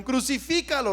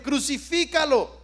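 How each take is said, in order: First: Said in the usual way. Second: Crucifícalo called out a little stronger; a mild retold crowd yell; louder mock crowd cry. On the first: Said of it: "Y dijeron". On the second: Preacher retelling the mob shouting louder, mild mock yell. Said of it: "gritaban más fuerte".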